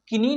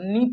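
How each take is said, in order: First: A k sound is pronounced at the start. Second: No k sound is heard at the start. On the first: The speaker calls it wrong. "नहीं पढ़ेंगे" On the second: The speaker calls it right. "के जो है यहाँ पे ये silent है"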